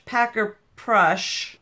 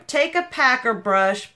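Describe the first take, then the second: First: Packer brush said slow and soft; slow careful repeat. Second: Said in the usual way. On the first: Shown as a demonstration. Correcting herself to viewers, slow "packer brush". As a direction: spell out "packer brush" slowly, each word even.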